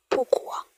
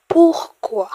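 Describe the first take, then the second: First: "Pourquoi" breathed in a whisper, no voice. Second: "Pourquoi" said high and loud, both syllables clear; emphatic pourquoi. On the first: Teacher repeating "Pourquoi" for learners in a whisper. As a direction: whisper "Pourquoi" softly to yourself. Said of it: "teacher repeats the word". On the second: Teacher modelling "Pourquoi" for learners, high and loud. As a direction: call out "Pourquoi" high and strong for the class. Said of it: "teacher models the word". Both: Shown as a demonstration.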